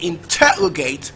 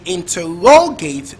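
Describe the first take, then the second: First: The stress is on the second syllable. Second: The stress is on the third syllable.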